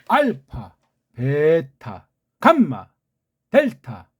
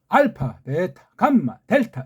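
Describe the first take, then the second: First: The letters are read at a moderate pace. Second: The letters are read at a faster pace.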